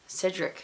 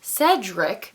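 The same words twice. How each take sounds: First: "Cedric" with a short i, as SID-rik; first vowel of "Cedric" slipped to "ih"; mispronounced name. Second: Said in the usual way. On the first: Real, not acted. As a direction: say "Cedric" as if spelt Sidrick. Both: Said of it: "who the frick is Cedric".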